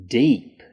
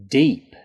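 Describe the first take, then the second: The two takes are said the same way.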